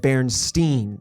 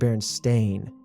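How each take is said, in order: First: The last syllable sounds like 'steen'. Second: The last syllable sounds like 'stain'. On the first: The speaker calls it wrong. "It's the Steen part. I always thought of it as Bernstein" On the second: The speaker calls it right. "it's actually Berenstain"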